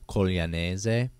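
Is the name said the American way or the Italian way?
Italian. The name is said with Italian pronunciation.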